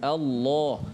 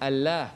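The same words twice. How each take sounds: First: The 'l' sound is heavy and thick. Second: The 'l' sound is light and thin. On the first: The speaker calls it right. "Kita kena sebut Allah. Kenapa tebal di situ?" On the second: The speaker calls it wrong. "kita tak boleh sebut sebut Allah"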